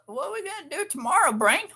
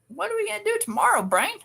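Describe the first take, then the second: First: The put-on voice is pitched higher. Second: The put-on voice is pitched lower. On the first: The speaker calls it right. "That sounded better" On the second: The speaker calls it wrong. "not quite"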